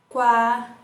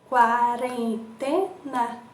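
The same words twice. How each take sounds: First: Said in the usual way. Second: Slow, quarentena split into beats; syllables drawn out. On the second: Shown as a demonstration. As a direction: stretch out every syllable. (quarentena bem escandida) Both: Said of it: "quantas emissões de som".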